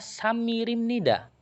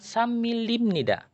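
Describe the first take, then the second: First: The middle consonant is a flapped R sound. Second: The middle consonant is a clear L sound. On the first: The speaker calls it right. "saya bacanya samirimnida" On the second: The speaker calls it wrong. "bukan samilimnida"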